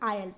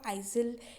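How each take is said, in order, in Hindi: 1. यह शब्द बिना z ध्वनि के बोला जाता है। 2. यह शब्द z ध्वनि के साथ बोला जाता है। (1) "इसको हम आयल पढ़ते हैं" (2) "इसको आइजल या एस का प्रोनाउंसिएशन तो इसमें इंक्लूडेड होता ही नहीं है"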